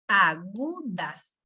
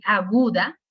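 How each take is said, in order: First: Agudas very slow, a-GU-das; syllable by syllable. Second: Said in the usual way. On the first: Shown as a demonstration. Teacher counting syllables for students, Agudas very slowly syllable by syllable. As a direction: stretch Agudas into three separate syllables. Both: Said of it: "¿cuántas sílabas tiene?".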